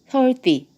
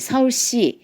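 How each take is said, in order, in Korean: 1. s 소리는 긴장된 d 같아요. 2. s 소리는 바람이 새면서 쉭쉭거려요. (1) "뜹니다" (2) "이렇게 새는 소리가 나는"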